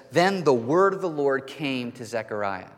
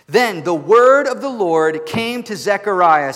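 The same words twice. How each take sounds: First: Said in the usual way. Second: Loud, slow, ringing proclamation; booming pulpit reading of scripture; solemn scripture reading. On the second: Acted. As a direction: proclaim the verse over the music like a herald. Scripture read with music.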